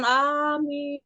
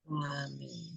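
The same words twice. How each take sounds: First: It is said loudly, raised. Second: It is said softly, not raised.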